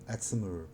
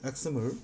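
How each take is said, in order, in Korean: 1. 미국식 억양으로 발음합니다. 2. 한국식 억양으로 발음합니다. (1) "미국 놈들은 엑스엠엘 이렇게 얘기를 하죠" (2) "한국식 발음이고요"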